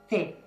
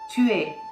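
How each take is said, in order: First: It is shortened into a single syllable. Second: It is said as two separate syllables. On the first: This is how people really speak. "Real speech" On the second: This is the textbook form.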